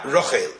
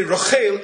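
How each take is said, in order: First: "Rochel" stressed on the first syllable, lower; wrong stress. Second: "Rochel" stressed on the last syllable, higher and louder; correct stress. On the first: Teacher showing the wrong pronunciation of "Rochel", stressed first syllable. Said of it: "and not". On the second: Teacher giving the right pronunciation of "Rochel", stressed last syllable. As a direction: say "Rochel" with the weight on the final syllable. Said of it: "we know we say". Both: Shown as a demonstration.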